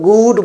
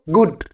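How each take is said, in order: First: The vowel is a long oo sound. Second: The vowel is a short oo sound. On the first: The speaker calls it wrong. "कुछ लोग गुड बोलते हैं, उसमें सोचते हैं कि double ओ है तो इसलिए लंबी ऊ का साउंड होगा" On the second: The speaker calls it right. "लेकिन इसमें साउंड होता है ऊ, तो गुड"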